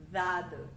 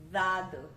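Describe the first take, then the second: Both takes have the same delivery.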